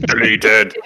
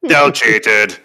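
First: Mexican wrestler voice. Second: Booming luchador announcer; Mexican wrestler voice. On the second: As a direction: growl it like a masked wrestler. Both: Pretend. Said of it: "in your very best Mexican wrestler voice".

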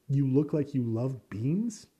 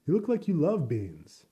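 First: Incredulous repeat. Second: Coworker quote. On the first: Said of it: "That's an insult if I've ever heard one". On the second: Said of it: "a coworker was like". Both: Retold or imitated.

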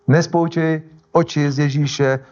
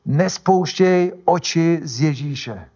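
First: "nespouštěj" slowly, at everyday pitch; measured repeat. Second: NESPOUŠTĚJ stretched slowly and pitched up; emphatic exhortation. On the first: Preacher repeating scripture to listeners, "nespouštěj" measured and level. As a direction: say "Nespouštěj oči z Ježíše" deliberately, less stretched. Repeats the exhortation less stretched. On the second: Preacher urging listeners by scripture, "nespouštěj" slow and drawn out. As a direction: draw out "nespouštěj oči z Ježíše" very slowly. Urges congregation with scripture, then repeats. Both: Shown as a demonstration.

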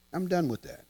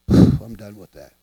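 First: Said in the usual way. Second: Deep letting go. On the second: Shown as a demonstration. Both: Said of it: "demo letting go".

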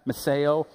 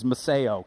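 First: Meseo, repeated as meh-SAY-oh; repeat the word. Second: Meseo, said slowly as meh-SAY-oh; Greek word. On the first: Preacher modeling the Greek word Meseo for the crowd to repeat. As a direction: echo Meseo back to the crowd. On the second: Preacher teaching the crowd the Greek word meseo, spelled out clearly. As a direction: sound out meseo syllable by syllable. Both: Shown as a demonstration. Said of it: "Can you say that?".

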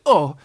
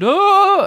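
First: Coming down. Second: Very high, loud "Oh!"; high squealed "Oh!"; going up in the air. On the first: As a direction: drop "Oh!" down as if landing with a bump. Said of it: "as he came down, he said". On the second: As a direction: shoot "Oh!" right up high, as if flung upward. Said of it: "as he went up in the air". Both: A narrator's reading.

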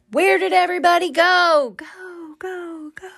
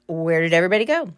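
First: High call fading into an echo. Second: Said in the usual way. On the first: Shown as a demonstration. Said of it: "Get it? The echo?". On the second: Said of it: "you're like".

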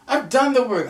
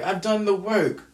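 First: Louder, higher insistent repeat; emphatic. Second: Said in the usual way. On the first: Real, not acted. To the camera, insisting on her effort: raised emphatic voice. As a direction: hammer the point home, louder.

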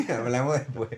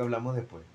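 First: Laughing through the repeat of the line. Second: Cool, dismissive brush-off line; curt brush-off. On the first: Real, not acted. Friend repeating his own brush-off line, laughing. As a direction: say it again while cracking up. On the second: Pretend. Friend pretending to dump a crying partner, cool brush-off. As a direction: shut her down flatly and move on. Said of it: "le digo".

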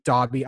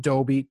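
First: "Dobby" with an open vowel, like DAH-bee; first vowel of "Dobby" as in "hot"; short-o pronunciation. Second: "Dobby" with a long o, like DOH-bee; first vowel of "Dobby" as in "go"; long-o pronunciation. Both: Shown as a demonstration. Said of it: "don't really know how to pronounce".

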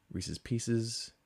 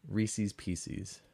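First: "Reese's Pieces" as REE-siz PEE-siz; short-ending pronunciation. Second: "Reese's Pieces" as REE-seez PEE-seez; long-ee ending pronunciation. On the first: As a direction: end both words of "Reese's Pieces" in a short -iz. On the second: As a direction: end both words of "Reese's Pieces" in a long -eez. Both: Shown as a demonstration. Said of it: "There are right answers, people".

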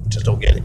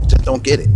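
First: A breathless whispered echo of himself; whispered repeat. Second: Said in the usual way. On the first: Real, not acted. Ranting podcaster whispers the line again to himself. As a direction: whisper it under your breath.

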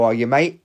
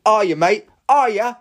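First: Said in the usual way. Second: Higher and louder, rising goading jab; heated taunt. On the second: Real, not acted. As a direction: push it up, really wound up. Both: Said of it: "got a little bit heated there".

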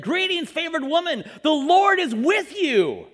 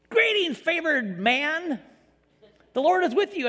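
First: Slow, ringing angel proclamation, a touch louder; grand angel greeting. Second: Drawn-out, slightly raised angel voice; a hammed-up heavenly herald; mock angel greeting. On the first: Acted. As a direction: announce it like a heavenly herald. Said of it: "Gabriel appeared to her and said". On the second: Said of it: "if an angel showed up in my house".

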